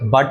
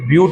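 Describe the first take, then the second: First: It is said with a short 'u' as 'but'. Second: It is said with a 'yoo' sound as 'byoot'. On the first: The speaker calls it wrong. "బట్ అని చదవకండి" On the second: The speaker calls it right.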